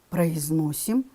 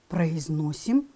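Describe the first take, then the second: The two takes are said the same way.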